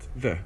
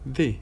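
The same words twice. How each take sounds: First: The word ends in a short schwa vowel. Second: The word ends in a full, unreduced vowel. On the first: The next word starts with a consonant. "the plus schwa" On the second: The next word starts with a vowel. "if the following word starts with a vowel, then it becomes the"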